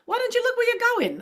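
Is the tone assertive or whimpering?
assertive. It is said in a sharp, assertive tone.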